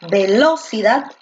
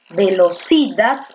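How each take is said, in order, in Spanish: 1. La fuerza recae en la segunda sílaba. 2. La fuerza recae en la tercera sílaba.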